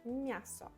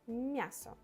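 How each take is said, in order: First: A soft m, flowing straight into the ya. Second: A soft m, flowing straight into the ya.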